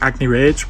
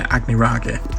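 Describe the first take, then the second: First: The name is pronounced the anglicized way. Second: The name is pronounced the Japanese way. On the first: This is how some people would say it. The speaker calls it wrong. "some people would pronounce it" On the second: This follows how the name is said in Japanese. The speaker calls it right. "knowing Japanese, I'm going to say"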